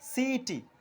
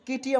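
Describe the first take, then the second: First: The word begins with an s sound. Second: The word begins with a k sound. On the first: The speaker calls it right. "সেজন্য এর উচ্চারণটি হলো সিইটি" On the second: The speaker calls it wrong. "কিটি আমরা বলছি না"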